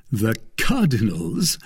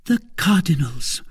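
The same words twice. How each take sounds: First: Slower question with a rising end; amused cry. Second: Higher voice, falling end; woman's confirming reply. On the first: Young man learning whose money it is, amused surprise. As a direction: ask it in mildly amused surprise. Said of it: "breaking into a loud laugh". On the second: Woman confirming whose bag it is, high and matter-of-fact. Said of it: "replied Madame Bonacieux". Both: A narrator's reading.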